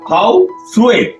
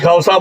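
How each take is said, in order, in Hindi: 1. शब्द का अंत 'swe' ध्वनि से होता है। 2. शब्द का अंत सादा 'sa' ध्वनि से होता है। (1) "बर्मा में उसका असल प्रोनाउंसिएशन है" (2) "हमारे यहाँ जनरली खौसा बोलते हैं"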